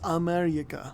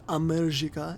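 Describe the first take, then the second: First: The letter J is said like a Y. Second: The letter J is said like English J. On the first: The speaker calls it right. "the Y sound is equivalent to the J" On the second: The speaker calls it wrong. "like I have been pronouncing"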